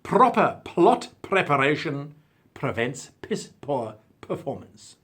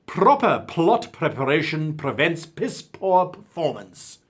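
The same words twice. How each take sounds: First: Slow, p sounds popped in "proper plot preparation"; crisp alliteration again. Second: Slow, every p popped hard in "Proper plot preparation"; crisp alliteration. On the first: Showing off the alliteration just because he can. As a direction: savour each p in "piss poor performance". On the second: Reading a viewer's motto, popping every p. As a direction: spit out each p in "piss poor performance". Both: Shown as a demonstration. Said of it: "And just because I can do it".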